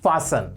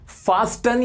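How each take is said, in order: First: The t sound is silent in the middle. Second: The t sound is pronounced in the middle. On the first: The speaker calls it right. "इसमें टी silent होता है" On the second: The speaker calls it wrong. "फास्टन your seat belt नहीं होता"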